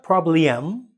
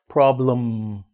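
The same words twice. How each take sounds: First: The second vowel is full and clearly pronounced. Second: The second vowel is reduced into the M. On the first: The speaker calls it wrong. "It's not problem" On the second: The speaker calls it right. "make it fall with the M, so the it becomes um problem"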